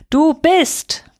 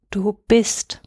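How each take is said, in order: First: Higher, louder cry into the storm; called out. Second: Said in the usual way. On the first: A narrator's reading. Boy lifting his blanket, calling into the storm. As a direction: call it out over the wind. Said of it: "rief nun in den Sturm hinaus". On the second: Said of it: "wiederholte Chaim".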